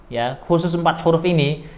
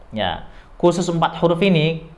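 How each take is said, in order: Both takes have the same delivery.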